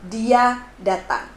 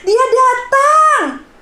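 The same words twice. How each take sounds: First: It is said in an ordinary, neutral tone. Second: It is said in a happy, joyful tone.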